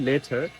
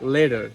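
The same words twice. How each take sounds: First: The t is a clear, hard t. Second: The t is a soft, d-like tap. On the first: This is how local speakers say it. "Normally আমরা বলি" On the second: This is how Americans say it. "বাট ইট will be"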